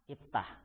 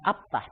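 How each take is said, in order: First: The word begins with an 'i' vowel. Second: The word begins with an 'a' vowel. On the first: The speaker calls it right. "tapi if, iftah" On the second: The speaker calls it wrong. "Bukan abtah"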